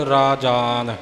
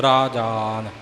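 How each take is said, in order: The two takes are said the same way.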